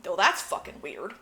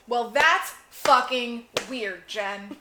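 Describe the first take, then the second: First: Said in the usual way. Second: Drawn out, slow and deliberate; slow emphatic. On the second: Shown as a demonstration. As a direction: spell out how weird it is.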